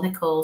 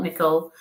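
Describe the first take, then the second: First: Nicole said as "nih-KOHL", stress on the long second syllable; "Nicole" with a clear, stressed "KOHL" ending; corrected name. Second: Nicole said as "NICK-ul", unstressed schwa second syllable; "Nicole" with a short, swallowed second vowel; first try at the name. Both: Shown as a demonstration. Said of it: "is it Nicola or Nicole?".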